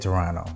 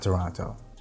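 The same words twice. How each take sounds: First: It is pronounced the way local people say it. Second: It is pronounced the way outsiders say it. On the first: The speaker calls it right. "say Toronto" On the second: The speaker calls it wrong. "not Toronto. Locals hate that"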